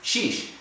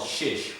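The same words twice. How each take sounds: First: "Sheesh" said with a long ee like "sheep"; corrected pronunciation. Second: "shish" said with a short i like "fish"; wrong pronunciation. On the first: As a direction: stretch "Sheesh" into a long ee vowel. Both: Shown as a demonstration. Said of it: "sorry, I said shish".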